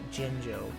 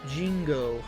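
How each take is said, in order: First: The middle consonant is a J sound. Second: The middle consonant is a hard G sound. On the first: The speaker calls it right. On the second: The speaker calls it wrong.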